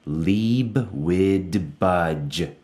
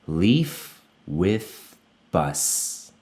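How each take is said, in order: First: Endings become b, d, j sounds with extra syllables. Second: Endings become voiceless hissing sounds like f, th, s. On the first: "비읍 혹은 B 발음으로 잘못 처리되고 음절도 추가되었다" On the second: "유지되는 무성음으로 ... 새는 소리 발음으로 처리되었다"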